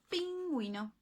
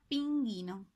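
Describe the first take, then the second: First: The u is sounded after the g. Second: The u is silent after the g. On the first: The speaker calls it right. "Como en este caso" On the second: The speaker calls it wrong. "Si no estuviera la U así, y lo leo así, sería pinguino"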